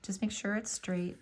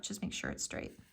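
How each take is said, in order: First: Said in the usual way. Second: Soft whispered reminder, breath only. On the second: Real, not acted. Crafter repeating her tip to viewers, whispered.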